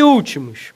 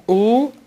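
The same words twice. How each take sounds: First: Said in the usual way. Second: "Últimos" split into separate syllables with long pauses. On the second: Shown as a demonstration.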